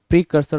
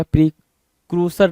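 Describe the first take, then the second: First: प्रीकर्सर with "kur" in the middle; correct pronunciation. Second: प्रीक्रूसर with "kroo" in the middle; wrong pronunciation. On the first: Shown as a demonstration. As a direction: say प्रीकर्सर as pree-KUR-ser. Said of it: "प्रीकर्सर होगा". (सही उच्चारण, बीच में "कर") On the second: Retold or imitated. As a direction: say प्रीक्रूसर as pree-KROO-ser. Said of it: "प्रीक्रूसर नहीं होगा". (गलत उच्चारण, बीच में "क्रू")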